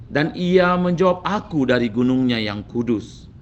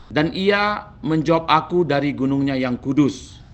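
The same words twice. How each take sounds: The two takes are said the same way.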